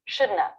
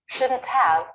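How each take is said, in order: First: The words blend into one reduced word. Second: Both words are said fully and separately.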